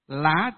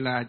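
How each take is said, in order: First: The word has a high rising tone. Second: The word has a low falling tone. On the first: The speaker calls it wrong. "Thì viết dấu sắc thì đây thầy đọc lại lá thôi" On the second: The speaker calls it right. "Khi ở trong nhà có người là chim lại gõ cửa sổ. Chắc là như thế"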